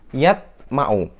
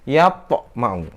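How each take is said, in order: First: The t is closed with no bounce. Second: The t bounces lightly, only halfway. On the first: The speaker calls it wrong. "Salah, tidak pantul" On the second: The speaker calls it right. "Yang betul"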